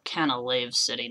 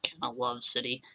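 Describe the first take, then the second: First: The third syllable rhymes with cave. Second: The third syllable rhymes with love. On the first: The speaker calls it right. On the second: The speaker calls it wrong. "not Canalove City"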